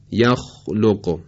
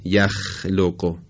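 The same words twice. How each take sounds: First: یخلق slow with a heavy, raised vowel; یخلق said dark and full; correct isti'la. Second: یخلق slow with a thin, light vowel; یخلق said the wrong light way; wrong light form. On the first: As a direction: say یخلق slowly with the mouth open upward. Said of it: "و نه یخلق". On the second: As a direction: say یخلق flat, without raising. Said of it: "و نه". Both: Shown as a demonstration.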